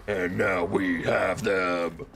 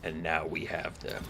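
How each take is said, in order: First: Slow dramatic shout; slow shouted take. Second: Low quiet take. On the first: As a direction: draw it out and shout it. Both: Shown as a demonstration.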